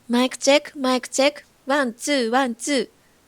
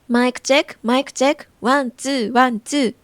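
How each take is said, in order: First: The voice has boosted high treble frequencies. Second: The voice has boosted low bass frequencies. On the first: "これは明るいエフェクトです。" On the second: "これはバスエフェクトです。"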